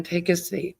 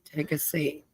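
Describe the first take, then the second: First: Said in the usual way. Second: Trailing off softly. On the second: Real, not acted. Repeated invitation fading off.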